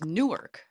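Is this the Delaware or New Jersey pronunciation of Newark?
New Jersey. It is said the way New Jersey locals say it. The speaker is from New Jersey. "If you're from New Jersey, Newark is Newark"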